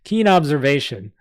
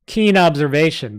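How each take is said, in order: First: Put-on sarcastic goblin in a New York accent, a repeat take; the goblin redoes his jab at Griffin, in a New York accent. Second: Put-on goblin with a New York accent, louder; sarcastic New York goblin voice; a snide New York goblin mocks the knight, in a New York accent. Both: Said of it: "my goblins from New York".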